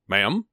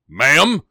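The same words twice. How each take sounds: First: It is said softly and politely. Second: It is screamed in a low, gravelly voice. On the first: A courteous request. The speaker calls it right. "I kind of politely say" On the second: An intimidating, excessive demand. The speaker calls it wrong. "start screaming in that low, gravelly voice"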